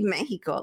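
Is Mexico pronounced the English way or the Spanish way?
Spanish. The word is said with a Spanish pronunciation. "that's the way it's supposed to be said"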